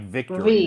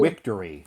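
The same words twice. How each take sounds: First: It begins with a V sound. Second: It begins with a W sound. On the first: The speaker calls it right. "V like vic like victory" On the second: The speaker calls it wrong. "So they it sounds like a W sound"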